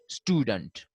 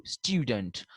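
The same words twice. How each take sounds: First: Student said "stoo-dent"; no y glide in student, plain oo; American pronunciation. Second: Student said "styoo-dent", falling; y glide before the oo in student; British pronunciation. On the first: Teacher contrasting how these people say it, student as "stoo-dent". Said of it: "While these people say". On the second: Teacher repeats the British form, student as "styoo-dent". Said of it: "the Britishers say". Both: Shown as a demonstration.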